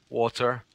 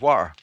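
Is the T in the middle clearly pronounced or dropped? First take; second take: pronounced; dropped. First: The middle T sound is clearly pronounced. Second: The middle T sound is dropped. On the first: The speaker calls it right. "say it right" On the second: The speaker calls it wrong. "she doesn't pronounce her T's. She doesn't say water. She says water"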